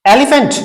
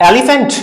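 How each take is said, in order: Both takes have the same delivery.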